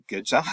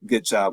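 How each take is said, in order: First: A light, rising "good job" with "job" going up; tentative good job. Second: A louder, firm "good job" with a falling tune on "good"; emphatic good job. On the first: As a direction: offer the praise almost as a question, a little higher in pitch. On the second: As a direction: punch the praise home and land it down. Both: Real, not acted. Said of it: "I don't know what else to say except".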